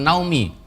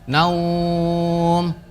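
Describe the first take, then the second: First: It ends with an added short vowel. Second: It ends on a long held diphthong. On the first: The speaker calls it wrong. "bukan naumi" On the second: The speaker calls it right. "dibaca panjang"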